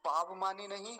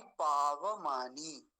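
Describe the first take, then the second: First: पावमानी said as paavmani, the व halved; quick mistaken पावमानी with v clipped; wrong pronunciation. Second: पावमानी very slow, पा-व-मा-नी with full व; correct pronunciation. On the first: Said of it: "वकार को आधा". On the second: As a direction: draw out पावमानी keeping the व whole. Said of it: "वकार को पूरा ही रखेंगे हम". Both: Shown as a demonstration.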